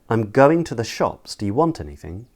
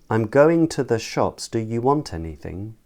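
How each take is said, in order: First: Stressed words are longer; the words between are reduced. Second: Every syllable gets roughly equal length and weight. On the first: The speaker calls it right. "then I'll say it in a stress timed pattern" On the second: The speaker calls it wrong. "firstly in a syllable timed uh, pattern"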